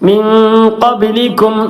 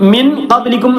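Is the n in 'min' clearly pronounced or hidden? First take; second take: hidden; clearly pronounced. First: The n of min is hidden and nasalized. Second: The n of min is pronounced clearly. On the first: The speaker calls it right. "ഇഖ്ഫായിന്റെ അക്ഷരമാണ്" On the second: The speaker calls it wrong. "മിൻ ഖബ്ലിക്കും എന്ന് പറയാൻ പാടില്ല"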